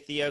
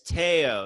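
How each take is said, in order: First: The name begins with a th sound. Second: The name begins with a plain t sound. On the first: The speaker calls it wrong. "Americans will say Theo because that's what it looks like" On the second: The speaker calls it right. "It's Teo"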